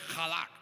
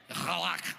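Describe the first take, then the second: First: It is said with a plain Spanish accent. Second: It is said with a Hebrew accent.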